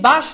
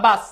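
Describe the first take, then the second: First: বাস ending in a hushed "sh", "bash"; wrong option বাস, closed on a sh sound; sh pronunciation. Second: বাস ending in a sharp "s", "bas"; s pronunciation. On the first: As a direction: say বাস with sh at the end. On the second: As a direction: say বাস with a clean s. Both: Shown as a demonstration. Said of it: "এটা কি বাস না বাস?".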